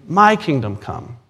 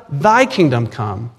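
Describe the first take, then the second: First: Slow, pointed stress on "my". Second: Slow, weighty stress on "thy". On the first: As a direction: lean on "my", then let it drop. Contrasts my with thy. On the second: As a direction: draw out "thy" before letting the phrase fall. Contrasts thy with my. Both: Shown as a demonstration.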